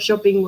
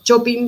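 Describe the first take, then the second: First: It is said with an English accent. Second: It is said with a Spanish accent.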